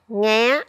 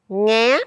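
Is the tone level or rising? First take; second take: rising; rising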